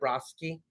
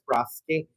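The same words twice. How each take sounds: First: The S sound is said clearly. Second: The S sound is said with a lisp.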